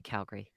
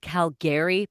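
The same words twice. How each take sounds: First: The name is pronounced the way locals say it. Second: The name is pronounced exactly as spelled. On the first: The speaker calls it right. "We say Calgary" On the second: The speaker calls it wrong. "Although it's spelled Calgary, but never say it that way"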